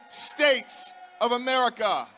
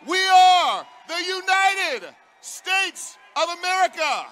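First: Said in the usual way. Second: Loud, high chanted shout; chanted, roar it to the crowd; rally chant shout. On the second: Real, not acted.

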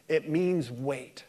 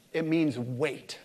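Both takes have the same delivery.

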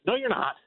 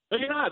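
First: No, you're not. punched high; emphatic denial. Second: No, you're not. said higher still, with stress on not; stronger emphatic denial. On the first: Guest rejecting the monkeypox message, emphatic and high. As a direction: bat the claim away firmly. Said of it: "flat contradiction". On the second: Guest repeating his rejection even higher and firmer. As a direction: hammer the denial home. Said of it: "repeated contradiction". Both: Real, not acted.

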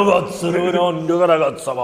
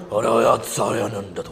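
First: Mock Japanese. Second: Low, slow fake Japanese gibberish; lower, slower imitation of a Japanese dub; mock Japanese. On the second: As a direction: drag out a mock anime line. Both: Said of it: "todas las japonesas son".

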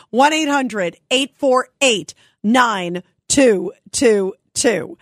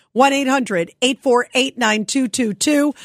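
First: Slow down, spacing out the final digits; measured number read-out for listeners to jot down; slow, spaced digits. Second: Said in the usual way. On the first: Real, not acted. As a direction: repeat the phone number slowly. Repeats the call-in number slowly.

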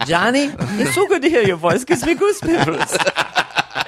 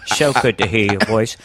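First: Very high put-on British voice; British-accented child. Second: Put-on small boy talking like an old Cockney actor; Michael Caine. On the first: On the phone with family, high British accent. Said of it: "The kid developed a British accent". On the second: Little brother on the phone to dad, Michael Caine voice. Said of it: "Michael Caine".

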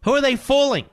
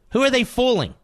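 First: Scoffing. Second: Incredulous. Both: Real, not acted. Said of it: "host mocks party".

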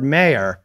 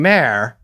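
First: Said in the usual way. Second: "mayor" squashed into one slow syllable, like "mare"; mimicked pronunciation. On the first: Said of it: "listening to you pronounce the word mayor". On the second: Pointing out a co-host's pronunciation, "mayor" as "mare". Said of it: "and you're saying mayor".

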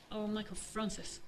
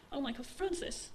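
First: Soft, slow mother's whisper. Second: Said in the usual way. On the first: Acted. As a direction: breathe the name slowly and quietly. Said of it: "she'd whispered". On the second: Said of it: "his mother said again".

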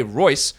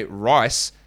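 First: ROYCE with a clear "oy" vowel; careful pronunciation. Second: RICE with a clear long "i" vowel; careful pronunciation. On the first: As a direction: say Royce slowly, rhyming with voice. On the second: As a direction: say rice slowly, rhyming with nice. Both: Shown as a demonstration. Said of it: "those two words are very different".

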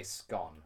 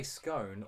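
First: "scone" said to rhyme with gone; short-o pronunciation. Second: "scone" said to rhyme with cone; long-o pronunciation. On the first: Podcaster lays out the great British debate, short-O "scone". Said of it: "or do you say scone". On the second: Podcaster lays out the great British debate, long-O "scone". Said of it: "do you say scone or do you say scone". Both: Shown as a demonstration.

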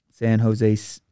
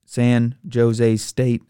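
First: "Jose" said "ho-ZAY" with an H; "Jose" as "ho-zay", Spanish H sound. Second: "Jose" said "JOE-zay" with a hard English J; slow "Jose" with a J, "joe-zay". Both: Shown as a demonstration. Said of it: "I gotta say Jose because that's what I normally call 'em".

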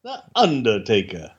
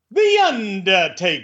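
First: Deep announcer voice. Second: Higher, slow showy announcer; high drawn-out announcer. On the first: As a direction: say it like a doom-laden reveal. Low dramatic echo. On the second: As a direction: stretch it out like a hype man. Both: Pretend.

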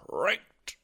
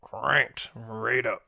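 First: High squeaky. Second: Slow drawn-out. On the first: Echoing cranked in silly voice. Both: Pretend.

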